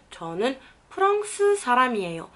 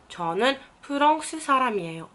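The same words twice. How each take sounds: The two takes are said the same way.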